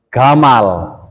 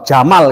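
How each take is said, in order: First: The word begins with a hard g sound. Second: The word begins with a soft j sound. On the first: "bisone gamal" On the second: "jamal itu gak bisa"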